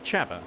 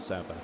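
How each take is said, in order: First: The name begins with a ch sound. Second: The name begins with an s sound. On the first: The speaker calls it right. "it's actually Chaba" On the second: The speaker calls it wrong. "not Saba, as I've been calling him"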